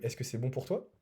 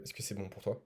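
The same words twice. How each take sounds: First: "Est-ce que c'est bon pour toi?" with pitch rising on "toi"; rising, seeking validation. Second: "Est-ce que c'est bon pour toi?" with pitch dropping on "toi"; falling tone, setting the frame. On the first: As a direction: end "toi" on an upward question tone. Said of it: "qui demande, euh, de la validation extérieure". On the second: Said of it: "tu poses ton cadre". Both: Shown as a demonstration.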